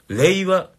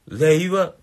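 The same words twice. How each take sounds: Both takes have the same delivery.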